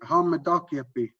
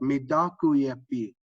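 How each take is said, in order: First: It is said smoothly at a natural fluent pace. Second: It is said slowly, every syllable overpronounced.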